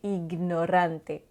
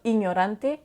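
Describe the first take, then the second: First: The G is sounded separately before the N. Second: The G and N merge into one sound. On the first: The speaker calls it right. "on va bien prononcer le G" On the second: The speaker calls it wrong. "on ne dira pas ignorante"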